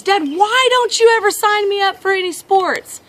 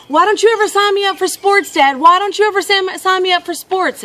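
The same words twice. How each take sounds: First: Put-on high, pleading kid complaint; pitched-up boyish protest; frustrated boy. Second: Put-on high, loud kid complaint; pitched-up, exasperated child's protest; frustrated boy. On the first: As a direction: imitate an exasperated child appealing to Dad. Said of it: "clearly frustrated. And he says". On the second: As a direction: imitate a boy whining at his dad. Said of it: "clearly frustrated".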